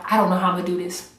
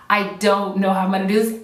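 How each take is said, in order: First: Fast, rushed I don't know how I'm gonna do this; rushed worry. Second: Said in the usual way. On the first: Retold or imitated. Recalling hard challenge days, a rushed mock worry. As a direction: race through it in mock panic. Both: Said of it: "was there days that I was like".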